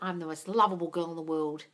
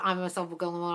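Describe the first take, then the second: First: It is said with lively, heartfelt conviction. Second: It is said flatly and mechanically, like a robot.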